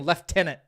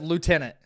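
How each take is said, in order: First: It is said with an F sound. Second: It is said without an F sound. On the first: This is how British speakers say it. The speaker calls it wrong. "people saying lieutenant" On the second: This is how the speaker says it. The speaker calls it right. "There's there's no F in there"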